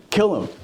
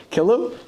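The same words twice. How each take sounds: First: Higher-pitched, falling command, acted out; insistent order. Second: High rising echo of an order; mock disbelief, pitched up at the end; incredulous question. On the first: Saul to troops who won't move, insistent order. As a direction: repeat the order as an impatient king. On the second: Troops questioning Saul's order to kill a priest, incredulous.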